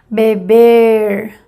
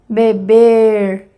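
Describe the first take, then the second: First: The final r sounds like an English r. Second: The same.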